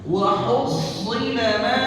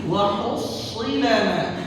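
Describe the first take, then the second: The two takes are said the same way.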